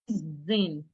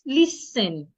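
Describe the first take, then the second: First: The middle consonant sounds like a Z. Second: The middle consonant sounds like an S. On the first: The speaker calls it wrong. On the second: The speaker calls it right.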